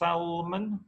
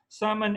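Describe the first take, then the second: First: The L is pronounced. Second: The L is silent.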